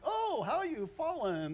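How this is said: It is said in a pleased, gloating tone. The speaker is happy about the fall. The speaker calls it wrong. "He wasn't like, ... This is great"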